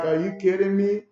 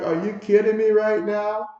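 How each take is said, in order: First: Mock disbelief, a bit raised; incredulous. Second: Mock outraged, higher and louder, rising at the end; louder disbelief. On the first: Lewis stunned by the call, mild mock disbelief. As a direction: play Lewis stunned by the call, half-hearted. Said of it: "and Lewis is like". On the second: Lewis can't believe the call, louder mock outrage. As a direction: push the disbelief up, hammed-up exasperation. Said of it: "He's like".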